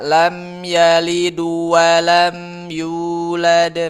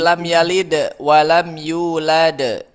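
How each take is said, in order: First: The bounce on the d sounds like u. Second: The bounce on the d stays neutral. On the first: The speaker calls it wrong. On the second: The speaker calls it right.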